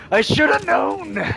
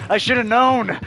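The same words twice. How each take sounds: First: Slow, drawn-out self-pity; dragged out. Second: Higher, louder self-scolding; exasperated. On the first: Repeating the thought slowly, drawn out in mock despair. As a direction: stretch every word, defeated. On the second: Retelling his thought after the Tinder letdown, higher and louder. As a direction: groan it at yourself, fed up. Thinking after the OnlyFans ask. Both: Retold or imitated.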